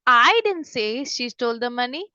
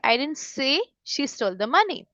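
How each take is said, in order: First: The stress falls on the word I. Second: The stress falls on the word say. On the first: Someone else said it. "अगर हाई पे मैं ज्यादा stress देती" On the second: It was implied, written or thought but not said directly. "मतलब मैंने directly नहीं बोला, या तो मैंने लिखा है या मैंने सोचा है"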